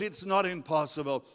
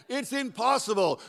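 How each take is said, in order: First: Plain, firm contradiction; God's firm answer. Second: Higher-pitched mock protest; doubting complaint. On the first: Acted. God answers the doubter, firm correction. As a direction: counter the doubt at normal pitch. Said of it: "But God says". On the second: Struggling believer objects to God's promise, high protest.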